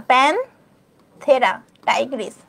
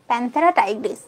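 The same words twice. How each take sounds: First: প্যানথেরা Tigris stretched out very slowly; slow pronunciation demo. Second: Said in the usual way. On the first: Shown as a demonstration. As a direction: say প্যানথেরা Tigris slowly so students can copy. (ধীরে টেনে উচ্চারণ) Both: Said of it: "এটা হচ্ছে প্যানথেরা".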